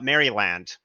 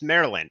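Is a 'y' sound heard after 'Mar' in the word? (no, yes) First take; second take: yes; no. First: A 'y' sound is heard after 'Mar'. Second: No 'y' sound is heard after 'Mar'. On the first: The speaker calls it wrong. "not Maryland" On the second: The speaker calls it right. "it's pronounced Maryland"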